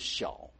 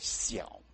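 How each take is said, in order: First: It has the standard Mandarin palatal onset. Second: It has a dental s-like onset, Hakka style.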